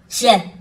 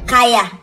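First: The word begins with a 'ch' sound. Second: The word begins with a 'k' sound. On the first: The speaker calls it right. "That word is pronounced as chair" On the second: The speaker calls it wrong. "But you that said that CH is pronounced as k"

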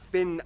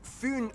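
First: The name is said with English pronunciation. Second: The name is said with Danish pronunciation. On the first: The speaker calls it wrong. "not Finn Island" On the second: The speaker calls it right. "I'm gonna pronounce the location names in their proper Danish context"

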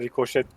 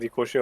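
First: The word ends with an audible t sound. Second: The word ends without any t sound. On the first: The speaker calls it wrong. "Yüzyıllarca rikoşet dediğimiz şeyin" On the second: The speaker calls it right. "aslında rikoşe olması. Sondaki T'nin okunmuyor olması"

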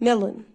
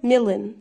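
First: It is pronounced like the English word million. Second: It is pronounced like the English word million.

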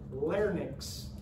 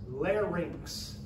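First: The n sound comes before the y vowel. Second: The y vowel comes before the n sound. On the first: The speaker calls it wrong. "do not say the word" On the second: The speaker calls it right. "The Y is before the N"

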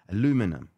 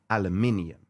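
First: The word is said the American way. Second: The word is said the British way. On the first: The speaker calls it wrong. "I know you guys in the US" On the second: The speaker calls it right. "That's how we say it"

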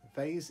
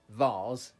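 First: The word is said with an American pronunciation. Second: The word is said with an English pronunciation. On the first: "Vase is the American way of saying it" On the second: "Vase is the English way"

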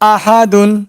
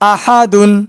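No difference in how they are said.

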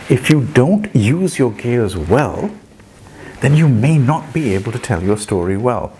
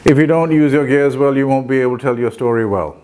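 First: It is said in a varied, lively way. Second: It is said in a plain, flat way.

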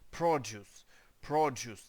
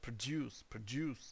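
First: The stress is on the first syllable. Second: The stress is on the second syllable. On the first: It is used as a noun, meaning things that are made. "Тобто з наголосом на перший склад" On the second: It is used as a verb, meaning to make something. "в нього на другий склад іде наголос"

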